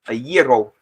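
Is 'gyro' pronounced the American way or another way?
non-American. Gyro is said in a non-American way.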